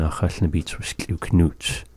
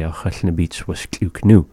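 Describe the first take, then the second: First: Final nuts sounded out completely; the proper full-grammar version; full form. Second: Said in the usual way. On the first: Shown as a demonstration. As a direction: say the full ending nuts clearly. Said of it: "This one's just having that more to it". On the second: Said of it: "common speech that we go about daily".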